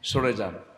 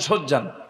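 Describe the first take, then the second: First: It is the full standard Bengali form. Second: It is a clipped regional dialect form. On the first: "মানে একটু সরে যান না" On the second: "এই যে একটা ভাষা"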